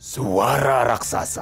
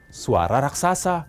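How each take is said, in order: First: It is said in a deep, booming giant voice. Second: It is said in the speaker's normal voice.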